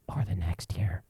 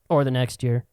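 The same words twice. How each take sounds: First: Whispered final item. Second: Said in the usual way. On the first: Shown as a demonstration. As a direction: drop to a sly whisper. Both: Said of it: "repeated list".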